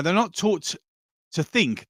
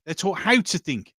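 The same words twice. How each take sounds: First: "think" set apart after a brief pause; stress on THINK. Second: "how" leaned on as the contrast; stress on HOW. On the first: Host on what schools fail to teach, stressing "think". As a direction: pause before "to", then land on "think". Contrasts two ways of teaching. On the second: Host on what schools teach instead, stressing "how". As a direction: hit "how", let "to think" fall away. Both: Real, not acted.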